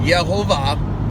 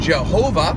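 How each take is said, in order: First: The name begins with a Y sound. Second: The name begins with a J sound. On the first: The speaker calls it right. "those would be pronounced as Y" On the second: The speaker calls it wrong. "In the King James, it'll give you the, the name Jehovah"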